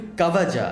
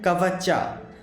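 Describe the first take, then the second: First: The middle consonant is a 'j' sound. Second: The middle consonant is a 'ch' sound. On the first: The speaker calls it right. "it's actually supposed to be Kavaja" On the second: The speaker calls it wrong. "like it's written here Kavacha"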